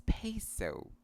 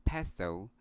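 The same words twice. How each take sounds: First: "peso" as PAY-soh, drawn out; slow "peso" with both diphthongs emphasized; correct pronunciation. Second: "peso" as PEH-so, short e; plain short eh in "peso": PEH-so; common Filipino pronunciation. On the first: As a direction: stress a long PAY in "peso". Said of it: "emphasize the diphthongs". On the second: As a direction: say "peso" with no ay glide. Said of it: "We often pronounce this word as". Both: Shown as a demonstration.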